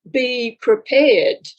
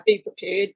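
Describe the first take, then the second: First: Slow, weighty "Be prepared"; measured, portentous warning; solemn message. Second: Quiet, dismissive "be prepared"; casual, shrugging repeat; offhand echo. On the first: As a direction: intone "Be prepared" slowly like a voice from beyond. Spirit guides' message quoted. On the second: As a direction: toss off "be prepared" like it's obvious. Her offhand reply to the guides. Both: Retold or imitated.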